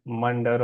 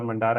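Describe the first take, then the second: First: Mandar with a short, reduced last vowel, "MUN-der"; short-vowel pronunciation. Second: Mandar with a long open last vowel, "mun-DAAR"; long-vowel pronunciation. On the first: Host trying a participant's name, Mandar said as "MUN-der". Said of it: "I hope I'm pronouncing your name right". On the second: Host offering another version of a name, Mandar as "mun-DAAR". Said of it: "I don't know". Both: Shown as a demonstration.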